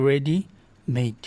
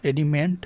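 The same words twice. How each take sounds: First: রেডিমেড said slowly, stretched as "re-di-meid"; correct pronunciation. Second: রেডিমেড ending in "men", the mistaken version; wrong pronunciation. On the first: Teacher modeling রেডিমেড slowly as "re-di-meid" for students. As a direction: spell out রেডিমেড slowly and clearly, ending in "meid". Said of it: "আর উচ্চারণটা কী হবে?". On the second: Teacher showing students the wrong রেডিমেড ending in "men". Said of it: "রেডিমেড নয়". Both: Shown as a demonstration.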